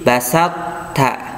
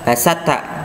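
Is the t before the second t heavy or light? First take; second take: heavy; light. First: The first t keeps a heavy, emphatic quality. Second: The first t sounds light, without emphatic quality. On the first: The speaker calls it right. "to-nya kelihatan" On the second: The speaker calls it wrong. "nggak boleh kita baca"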